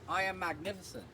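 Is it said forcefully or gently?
gently. It is said gently and nicely.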